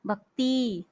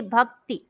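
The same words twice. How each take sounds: First: भक्ति ending in a drawn-out ती; long final ī error. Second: भक्ति ending in a quick ति; short final i. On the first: Teacher imitating the usual mistake, long ending on भक्ति. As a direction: hold the last vowel of भक्ति two beats. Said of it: "दो मात्रा का समय लगाते". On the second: Teacher showing how we should say it, short ति in भक्ति. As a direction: cut the last vowel of भक्ति to one beat. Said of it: "हमें बोलना चाहिए". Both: Shown as a demonstration.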